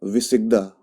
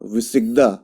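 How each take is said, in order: No difference in how they are said.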